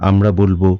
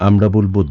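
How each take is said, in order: The two takes are said the same way.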